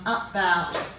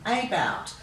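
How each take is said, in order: First: The first vowel is a weak 'uh' sound. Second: The first vowel is a long 'ay' sound. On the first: "let's read them as we say them" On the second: "we should be giving it a long sound"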